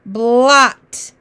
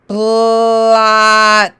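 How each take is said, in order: First: "Blot" said short and crisp as one word; whole word quickly. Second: "Blot" stretched, sounds slid together without stopping; slow slide through sounds. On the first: Teacher naming the blended word, quick and clear. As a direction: snap the sounds into "Blot". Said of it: "What's that word?". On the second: Teacher modelling blending, slow stretched slide. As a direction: draw out "Blot" in one long breath. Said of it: "we say all the sounds without stopping". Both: Shown as a demonstration.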